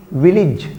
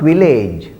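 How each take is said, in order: First: Village said as VIL-ij; correct pronunciation. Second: Village said as vi-LAYJ; mispronunciation. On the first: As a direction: say village with a short i in the second syllable. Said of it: "But the pronunciation is village". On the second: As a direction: say village with a long "lay" in the second syllable. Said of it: "not village". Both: Shown as a demonstration.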